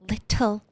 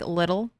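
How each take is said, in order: First: The middle consonant is a crisp T sound. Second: The middle consonant is a soft D sound. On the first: "Sounds super posh" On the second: "the T in most words is a D sound"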